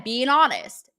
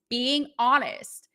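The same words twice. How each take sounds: First: Said in the usual way. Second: Slow emphatic repeat. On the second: Shown as a demonstration. Host repeating her motto, slow and emphatic. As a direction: draw out being honest, slowly.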